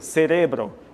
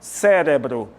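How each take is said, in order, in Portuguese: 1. A tônica está na segunda sílaba, re. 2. A tônica está na primeira sílaba, ce. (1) "No espanhol é o re" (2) "a tônica é Sé"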